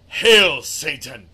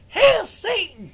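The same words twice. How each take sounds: First: It is said in a deep, dark voice. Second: It is said in a light, cheery voice.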